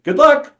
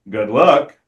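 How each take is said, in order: First: It is said warmly, as a sincere wish. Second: It is said darkly, with an ominous edge. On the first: A genuine wish for good fortune. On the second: You are now trapped and cursed.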